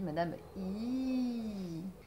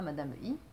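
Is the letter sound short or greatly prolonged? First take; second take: prolonged; short. First: The letter sound is held very long. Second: The letter sound is short and clipped. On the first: The speaker calls it right. "on dit ... les prolonger énormément" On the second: The speaker calls it wrong. "on ne dit pas"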